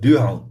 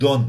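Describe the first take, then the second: First: The word is drawn out with a gliding vowel. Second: The word is one short, clipped syllable. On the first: This is how the person actually says it. The speaker calls it right. "Он говорит дюаун" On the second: This is how listeners assume the word sounds. The speaker calls it wrong. "это он не говорит дон"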